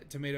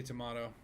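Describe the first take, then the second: First: "tomato" with middle syllable like may; long A pronunciation. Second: "tomato" with middle syllable like ma; broad A pronunciation. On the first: Streamer joking over a naming debate, "tomato" as tuh-MAY-toe. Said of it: "you say tomato". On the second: Streamer joking over a naming debate, "tomato" as tuh-MAH-toe. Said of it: "I say tomato". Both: Shown as a demonstration.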